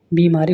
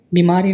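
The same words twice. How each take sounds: First: बीमारी with a long first ee; correct long vowel. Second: बीमारी with a short first i; wrong short vowel. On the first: Teacher corrects students, long first vowel. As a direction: say बीमारी as bee-maaree. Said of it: "इसमें बड़ी". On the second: Teacher shows students the mistake, short first vowel. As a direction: say बीमारी as bi-maaree. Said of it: "नहीं". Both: Shown as a demonstration.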